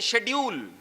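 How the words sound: The word begins with a 'sh' sound. This is the British way of saying it. "British accent में ... इसे वो लोग बोलते हैं शेड्यूल"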